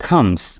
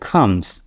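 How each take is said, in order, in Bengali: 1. প্রথম ব্যঞ্জনে জোরালো একটি বাতাসের ঝলক থাকে। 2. প্রথম ব্যঞ্জনে জোরালো একটি বাতাসের ঝলক থাকে।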